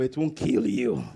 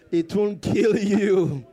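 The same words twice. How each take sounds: First: Low, slow "It won't kill you"; emphatic reassurance. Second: Loud, drawn-out "It won't kill you"; forceful reassurance. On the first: Preacher has congregation tell neighbours, low emphatic reassurance. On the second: Preacher drives it home to congregation, loud emphatic reassurance. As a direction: belt out "kill you" very slowly. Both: Real, not acted.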